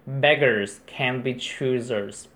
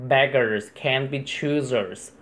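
The two takes are said the same way.

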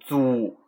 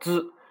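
First: The vowel is said with rounded lips. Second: The vowel is said with unrounded lips. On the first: The speaker calls it wrong. "不要念成租，啊，念租不又撅嘴了嘛" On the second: The speaker calls it right. "滋啊滋"

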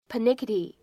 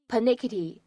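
The two takes are said the same way.

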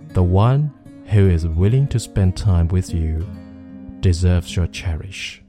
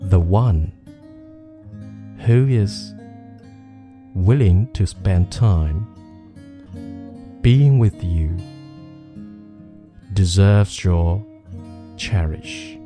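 First: The sentence is spoken at normal speed. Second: The sentence is spoken slowly. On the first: "再来一遍常数的。" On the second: "我们先来一遍慢速的。"

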